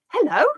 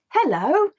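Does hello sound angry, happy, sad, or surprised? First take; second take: surprised; happy. First: The word sounds surprised. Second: The word sounds happy. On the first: "say it with surprise"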